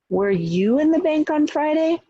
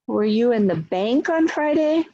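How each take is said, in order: First: The stress falls on the word you. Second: The stress falls on the word bank. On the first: The question is about the person. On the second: The question is about the place.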